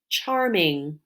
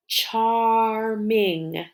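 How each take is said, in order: First: Said in the usual way. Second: "Charming" drawn out as char, ming; tapped syllables. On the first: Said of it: "in the word charming". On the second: Shown as a demonstration. Teacher tapping together with pupils, "Charming" said syllable by syllable. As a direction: split "Charming" into two long beats. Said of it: "Tap it".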